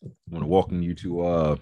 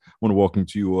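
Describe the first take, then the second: First: Talking through a mouthful of crackers; crunching crackers mid-sentence; mouth full. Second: Said in the usual way. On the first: Real, not acted. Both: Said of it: "pardon me, I'm eating crackers".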